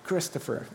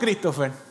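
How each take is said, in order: First: The name is said with an English accent. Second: The name is said with a Spanish accent.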